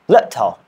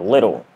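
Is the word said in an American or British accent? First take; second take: British; American. First: It is said in a British accent. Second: It is said in an American accent. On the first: "But here" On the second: "we pronounce in American English like"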